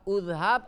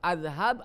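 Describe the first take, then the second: First: The word begins with a u vowel. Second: The word begins with an a vowel. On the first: "Tidak boleh udhab" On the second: "Tidak boleh udhab atau azhab"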